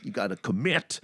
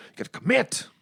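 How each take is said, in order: First: Said in the usual way. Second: Higher, insistent repeat of "You gotta commit"; emphatic. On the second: Shown as a demonstration. Urging his friend who wants to quit smoking, insistent. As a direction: drive it home the second time, higher.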